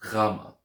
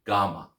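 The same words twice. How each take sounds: First: Gama with a throaty guttural G, GHAH-mah. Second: Gama with a plain hard G, GAH-mah; normal G. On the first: Teacher modelling guttural Greek Gama. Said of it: "that guttural G sound". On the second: Teacher offering easier hard-G Gama. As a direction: say Gama with an ordinary English G. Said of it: "just use a normal G". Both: Shown as a demonstration.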